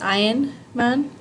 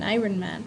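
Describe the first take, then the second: First: The middle R is barely heard. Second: The middle R is clearly pronounced. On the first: The speaker calls it right. "it's not, it's, it's Iron Man" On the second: The speaker calls it wrong. "they say, oh, it's Iron Man"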